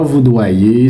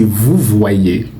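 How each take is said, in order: First: Voudoyer said with a "d", "vou-doyer"; wrong word. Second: Vous voyez said slowly, "vou-voyé", to show vouvoyer; correct model. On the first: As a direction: say voudoyer the mistaken way. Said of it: "c'est pas". (voudoyer, la forme fautive avec « d ») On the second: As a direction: stretch vous voyez to model the right sound. (vous voyez, lentement, modèle de « vouvoyer ») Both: Shown as a demonstration.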